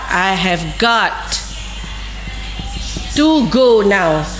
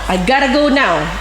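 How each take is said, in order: First: Have, got and to are said as separate words. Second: Got to is run together as gotta.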